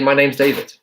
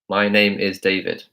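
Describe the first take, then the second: First: The word 'is' is contracted onto 'name'. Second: The word 'is' is said in full. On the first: The speaker calls it right. "You say" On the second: The speaker calls it wrong. "you don't say"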